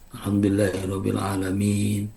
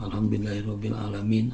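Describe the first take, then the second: First: The final vowel is held for two beats. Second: The final vowel is cut short. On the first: The speaker calls it right. "Minimal harus dua harkat" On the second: The speaker calls it wrong. "itu kan tidak benar ya"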